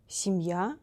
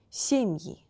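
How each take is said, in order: First: Семья stressed on final я; stress on last syllable. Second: Семьи stressed on first syllable е. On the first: Teacher gives the singular before the plural, final stress. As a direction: say семьЯ, weight on the end. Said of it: "We need to change place of". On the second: Teacher gives the plural of семья, first-syllable stress. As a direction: say сЕмьи, weight on the е. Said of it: "in form of plural, е will be stressed". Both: Shown as a demonstration.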